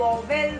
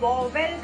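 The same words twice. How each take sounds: First: It sounds like 'vo-vel' with a clear middle v. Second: It sounds like 'vo-vel' with a clear middle v.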